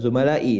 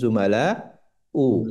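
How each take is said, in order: First: The word ends with an i vowel. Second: The word ends with a u vowel. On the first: The speaker calls it wrong. "bukan zumalai" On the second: The speaker calls it right. "namun zumala u"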